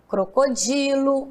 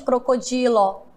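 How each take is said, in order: First: The final vowel sounds like 'u'. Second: The final vowel sounds like 'o'. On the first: The speaker calls it right. "o último tem som de U" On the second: The speaker calls it wrong. "Nós não falamos crocodilo"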